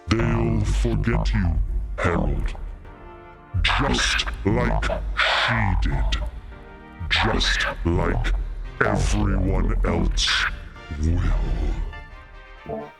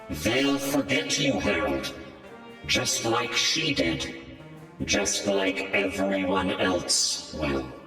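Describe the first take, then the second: First: A creepy voice that is hard to understand. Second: A different creepy voice that is easy to understand.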